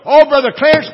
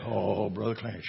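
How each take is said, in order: First: It is said in a joyful, upbeat tone. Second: It is said in a gloomy, downcast tone.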